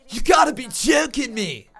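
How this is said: It is said in a put-on Australian accent.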